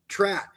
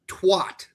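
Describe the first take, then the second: First: The second sound is an r. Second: The second sound is a w. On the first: It is said the way it is spelled. The speaker calls it right. "it's spelled T R A T, trat" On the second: It is said differently from its spelling. The speaker calls it wrong. "and I pronounce it twat"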